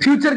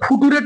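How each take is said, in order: First: The ending is pronounced as a 'cher' sound. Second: The ending is read letter by letter as 'too-ray'. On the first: The speaker calls it right. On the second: The speaker calls it wrong.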